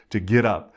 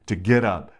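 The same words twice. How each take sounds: The two takes are said the same way.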